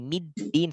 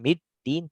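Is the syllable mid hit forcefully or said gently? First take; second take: gently; forcefully. First: The syllable mid is said smoothly without force. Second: The syllable mid is hit hard and abruptly. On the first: The speaker calls it right. "tapi middin saja" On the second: The speaker calls it wrong. "jangan dihentak juga middin"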